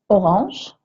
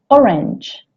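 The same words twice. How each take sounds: First: The word has a French pronunciation. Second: The word has an English pronunciation. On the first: "Orange se dit de la même manière en anglais" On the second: "sauf que ça se prononce orange"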